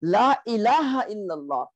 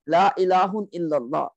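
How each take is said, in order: First: "ilaha" ending in an open a, no n; light ending. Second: "ilahun" with the -un ending; normal negation form. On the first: Teacher giving the actual sentence, light -a on "ilaha". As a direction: drop the noon, say "ilaha". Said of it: "which means you make it light". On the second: Teacher showing the could-have-been sentence, -un on "ilahun". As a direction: sound the n closing "ilahun". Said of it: "la ilahun was normal negation". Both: Shown as a demonstration.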